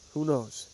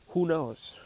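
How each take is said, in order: Both takes have the same delivery.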